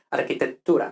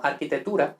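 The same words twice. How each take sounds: First: Arquitectura as architet-tura, t held; double t. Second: Arquitectura as architetura, one short t; single t. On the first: Teacher corrects learners, arquitectura with double t. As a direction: pause on the tt before -tura in arquitectura. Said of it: "sino arquitectura". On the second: Teacher shows learners' error, arquitectura with single t. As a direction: rush through the t of arquitectura without holding it. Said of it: "no arquitectura". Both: Shown as a demonstration.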